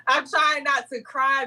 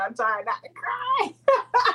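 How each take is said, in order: First: Said in the usual way. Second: Fighting tears as the words come out; holding back tears. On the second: Real, not acted. Guest on air, moved by her blessing, close to tears. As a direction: voice cracking high and slow.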